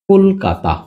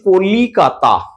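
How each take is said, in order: First: The middle vowel is dropped, giving three syllables. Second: A middle vowel is kept, giving four syllables. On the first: "এটাকে আমরা বলে বলি কলকাতা" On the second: "মধ্যতে যেমন ধরো আমরা বলছি কলিকাতা"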